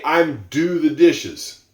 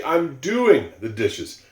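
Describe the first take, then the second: First: "I'm do the dishes" with bare "do"; the wrong way, slow; slow example of the mistake, "do"; wrong form demo. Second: Slow, careful "doing" with the ing; teacher modelling "doing" slowly; right form demo. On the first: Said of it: "you don't say". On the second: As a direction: lean on "doing". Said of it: "You say". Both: Shown as a demonstration.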